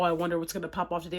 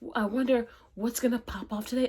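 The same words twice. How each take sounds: First: It sounds gloomy and pessimistic. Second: It sounds excited and hopeful.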